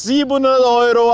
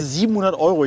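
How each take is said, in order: First: Loud, high market barker shouting the price; market crier. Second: Said in the usual way. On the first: Acted. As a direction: hawk the price like a fish-market seller. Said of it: "so als Marktschreier". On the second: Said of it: "Nein, also".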